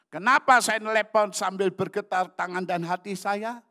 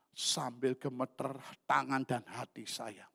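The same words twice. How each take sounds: First: High, very loud preaching question; shouted rhetorical question. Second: Said in the usual way. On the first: Real, not acted. Preacher asking congregation why he trembled on the phone, high shout. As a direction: throw the question out to the whole congregation.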